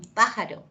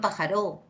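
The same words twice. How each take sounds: First: The stress falls on the first syllable. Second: The stress falls on a later syllable. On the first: The speaker calls it right. "es un pájaro" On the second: The speaker calls it wrong.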